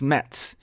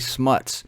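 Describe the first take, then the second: First: The vowel sounds like the 'e' in 'nets'. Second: The vowel sounds like the 'u' in 'nuts'. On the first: This is the supposed real pronunciation of the name. "It's pronounced Smets, I think" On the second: This follows the spelling and sounds like smut. "I like to say Smuts"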